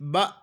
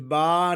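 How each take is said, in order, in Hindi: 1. स्वर एक अचानक झटके के साथ कट जाता है। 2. स्वर अंत में धीरे-धीरे खत्म होता है। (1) "बल्कि बा; इसको झटके जरा सा झटका देंगे" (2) "बा नहीं है"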